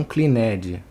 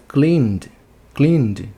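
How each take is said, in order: First: "cleaned" wrongly split as klee-NED-ee; wrong extra syllable. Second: "cleaned" in one syllable, ending in a voiced D; correct -ed as D. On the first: Teacher showing the mistake to avoid, "cleaned" as klee-ned. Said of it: "não cleaned". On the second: Teacher modelling the past tense, "cleaned" as one syllable. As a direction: say "cleaned" as kleend, no extra vowel. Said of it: "a gente vai botar o E D também". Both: Shown as a demonstration.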